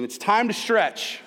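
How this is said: It is said with firm conviction.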